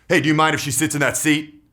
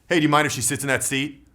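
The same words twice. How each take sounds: First: It sounds hard and commanding, like a cop. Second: It sounds even and neutral, neither hard nor pleading. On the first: "Rapport breaking is like a cop"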